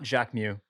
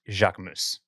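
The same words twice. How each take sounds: First: The final S sound is left silent. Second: The final S sound is clearly pronounced. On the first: The speaker calls it wrong. "it's not Jacquemus" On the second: The speaker calls it right. "it gets the S"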